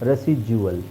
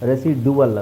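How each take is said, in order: First: The middle consonant is a 'j' sound. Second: The middle consonant is a plain 'd' sound. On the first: The speaker calls it right. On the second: The speaker calls it wrong. "ರೆಸಿಡುವಲ್ ಅಲ್ಲ"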